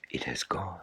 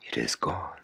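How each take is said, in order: First: Whisper. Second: Soft hush. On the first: Whispered repeat of line. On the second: Soft voiced echo line. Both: A narrator's reading.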